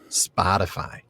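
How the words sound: It is said in an American accent. "Did I say that too American?"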